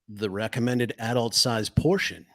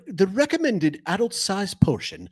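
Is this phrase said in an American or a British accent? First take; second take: American; British. First: It is said in the speaker's normal accent. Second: It is said in a put-on British accent.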